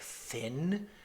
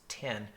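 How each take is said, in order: First: It begins with a soft th sound. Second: It begins with a plain hard t sound. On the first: The speaker calls it wrong. "in English, it's like thin" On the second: The speaker calls it right. "no, it's it's tin"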